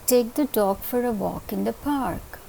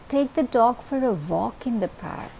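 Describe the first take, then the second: First: The word park is stressed. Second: The word dog is stressed.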